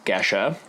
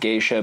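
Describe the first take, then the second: First: The first vowel sounds like the vowel in 'get'. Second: The first vowel sounds like the vowel in 'gay'. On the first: The speaker calls it right. "Gesha is correctly pronounced" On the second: The speaker calls it wrong. "a lot of folks call it geisha, but that is because it is incorrectly associated with the um, Japanese term geisha"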